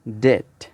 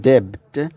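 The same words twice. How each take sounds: First: Debt said as det, silent b; correct pronunciation. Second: Debt with the b sounded; mock mistaken debt with a b; wrong pronunciation. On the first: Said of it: "it's debt". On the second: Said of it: "It's not debt". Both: Shown as a demonstration.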